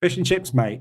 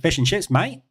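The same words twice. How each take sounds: First: Said in the usual way. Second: Australian accent. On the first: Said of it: "Say fish and chips, mate". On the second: Shown as a demonstration. English streamer answers a chat request, in a light Australian accent. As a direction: say it like a friendly Aussie bloke, in an Australian accent. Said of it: "do you want me to say it in an Australian accent?".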